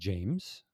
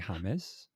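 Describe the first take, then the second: First: The name is said in English style. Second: The name is said in Spanish style.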